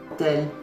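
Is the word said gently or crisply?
gently. The word is said softly with relaxed sounds.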